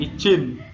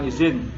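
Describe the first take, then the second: First: The word is said with a discouraged pronunciation. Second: The word is said with the accepted pronunciation. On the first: The speaker calls it wrong. "jangan izin" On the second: The speaker calls it right. "diucapkan izin"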